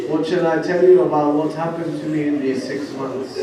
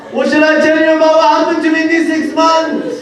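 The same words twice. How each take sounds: First: Said in the usual way. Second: High, loud, lamenting chant; wailing recitation. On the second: Shown as a demonstration. Preacher repeating Zainab's words as a loud wail. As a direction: cry the same line out in grief. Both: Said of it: "repeated phrase".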